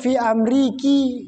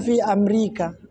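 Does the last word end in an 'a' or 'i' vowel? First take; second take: i; a. First: The last word ends in an 'i' vowel. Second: The last word ends in an 'a' vowel. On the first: The speaker calls it wrong. "tidak perlu fi Amriki" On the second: The speaker calls it right. "tetap saja fi Amerika cara membacanya"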